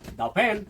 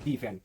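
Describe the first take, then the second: First: 'The' is said with a short 'uh' vowel. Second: 'The' is said with a long 'ee' vowel. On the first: The speaker calls it right. "Consonant का उच्चारण आ रहा है" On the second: The speaker calls it wrong. "Not दी fan"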